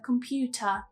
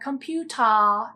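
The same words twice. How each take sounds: First: The final vowel is short and relaxed. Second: The final vowel is drawn out long. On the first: The speaker calls it right. "instead of computer" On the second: The speaker calls it wrong. "will elongate it and say something like computer"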